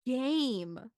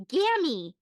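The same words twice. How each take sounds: First: "Game" said clearly with a hard G and long A; correcting pronunciation. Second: Put-on "Gammy!" shouted high and loud by a little kid, not "game"; kid mispronouncing. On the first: Shown as a demonstration. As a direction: model the word "Game" for a child. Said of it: "Buddy, no". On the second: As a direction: blurt "Gammy!" like a proud kindergartner. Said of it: "and he goes".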